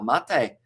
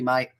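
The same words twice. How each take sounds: First: It is two syllables, like 'mah-teh'. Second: It is one syllable, rhyming with 'late'. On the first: This is the name of the drink. "but pronounced like uh, mate uh, in Matera, or Matir" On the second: This is the Australian word for friend. "written like the Aussie, mate"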